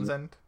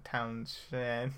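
First: "Townsend" with a plain z sound, no sh; corrected pronunciation. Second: "Townshend" with a sh in the middle; clumsy mispronunciation. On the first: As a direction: say "Townsend" as TOWN-zend. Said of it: "that sounds better than Townshend". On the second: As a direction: say "Townshend" as town-SHEN, drawn out. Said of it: "that sounds better than". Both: Shown as a demonstration.

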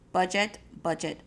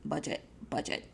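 First: Said in the usual way. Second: Whispered repeat. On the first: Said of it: "repeated chant". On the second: Shown as a demonstration. Speaker repeating the lesson to the audience, whispering "budget, budget". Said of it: "repeated chant, whispered".

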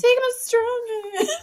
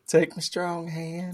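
First: High, crying melodramatic plea; Scary Movie quote. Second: Slow, high mock-dramatic line; Scary Movie quote. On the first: Retold or imitated. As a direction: sob it out melodramatically. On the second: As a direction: drag it out dramatically.

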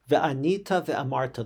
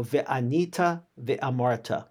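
First: Said in the usual way. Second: Slow, deliberate Hebrew "Ve'anita ve'amarta" with each syllable spelled out; slow careful Hebrew reading of "Ve'anita ve'amarta". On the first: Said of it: "You shall then recite as follows". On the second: Shown as a demonstration. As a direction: lay out "Ve'anita ve'amarta" slowly like a teacher. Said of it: "the words begin in Hebrew".

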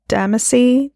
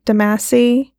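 First: DAMACY stressed on the first syllable, DAM-uh-see; tentative DAM-uh-see for Damacy; unsure pronunciation. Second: DAMACY stressed on the second syllable, duh-MASS-ee; second try at Damacy, duh-MASS-ee; alternative pronunciation. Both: Real, not acted. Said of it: "I don't know how to pronounce it".

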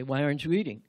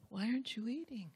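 First: Much louder and lower, harsh; loud irritated why aren't you eating; demanding question. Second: Softer and higher, caring tone; tender why aren't you eating; gentle concerned question. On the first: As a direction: bark it like an accusation. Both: Shown as a demonstration. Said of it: "Or did you say".

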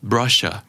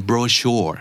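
First: Brochure in British English, BRO-shuh, no final R; British brochure, R dropped; British accent. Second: Brochure in American English, strong final R; American brochure with a clear R; American accent. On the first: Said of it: "แต่ถ้าเกิดเป็น British ก็จะเป็น". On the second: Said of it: "อเมริกันออกตัว R ค่อนข้างชัด". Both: Shown as a demonstration.

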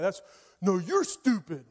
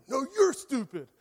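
First: Lightly voiced bratty kid snapping back; a hint of a sulky child trading insults; childish retort. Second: Put-on a touch higher bratty kid firing it back; mildly hammed-up schoolyard "No, you're stupid"; childish comeback. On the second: Preacher mimicking a childish comeback at Jesus. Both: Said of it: "such a child".

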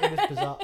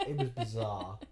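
First: Much higher squeaky bizarre; high-pitched amazed squeal. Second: Said in the usual way. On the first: Real, not acted. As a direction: squeak it in delighted disbelief. Squealed then repeated plainly.

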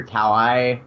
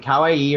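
First: "Kawaii" shortened to end in eye; alternative pronunciation. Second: "Kawaii" with the final ee sounded separately; pronunciation check. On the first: Host offers co-hosts another option, "Kawaii" said as cow-eye. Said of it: "is it Kawaii or Kawaii?". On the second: Host checks the word with co-hosts, "Kawaii" ending in a separate ee. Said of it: "Did I say that right?". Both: Shown as a demonstration.

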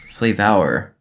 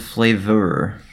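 First: "Flavor" ending in a drawn-out "vower"; playful mispronunciation. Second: Said in the usual way. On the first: Shown as a demonstration. Podcaster reading out Skittles blurb, "Flavor" mispronounced as "flay-vower". Repeats it with altered vowel.

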